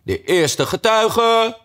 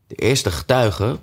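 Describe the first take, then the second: First: High, slow, stretched call of "getuige"; rabbit calling out. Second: Said in the usual way. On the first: A narrator's reading. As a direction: announce it like a court herald. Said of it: "riep luid".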